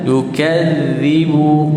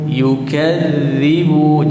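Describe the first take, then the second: First: The middle consonant is a soft 'dh' sound. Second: The same.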